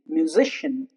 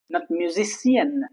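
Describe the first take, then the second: First: The i in the ending is a schwa. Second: The i in the ending is a full vowel. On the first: The speaker calls it right. "the I retains a sound, the squa sound" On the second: The speaker calls it wrong.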